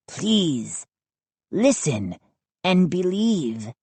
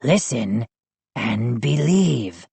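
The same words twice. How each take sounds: First: Slow, solemn request; gnome's solemn plea. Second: Slow, lower echo of the plea; echoing gnome. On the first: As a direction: ask them to trust you, gravely. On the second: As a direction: repeat it back, slow and low. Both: A narrator's reading. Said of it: "Hap echoed".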